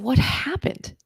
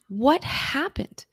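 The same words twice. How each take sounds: First: Breathless whispered question, rising. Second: Drawn-out, slow repeat of the question; slow pleading question. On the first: To her relapsed friend, a stunned whisper. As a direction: whisper it in shock. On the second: Pressing her friend again, slow and pleading. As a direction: stretch each word, begging for an answer. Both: Retold or imitated.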